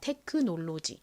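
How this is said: It is said with Korean-style syllables. "한국식으로 먼저 읽어보면"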